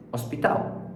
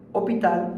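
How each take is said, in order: First: Hospital whispered French way, no h; French hospital, h dropped, voiceless; French hospital, silent h. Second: Said in the usual way. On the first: Shown as a demonstration. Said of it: "são quase iguais na pronúncia". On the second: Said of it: "ela se fala H".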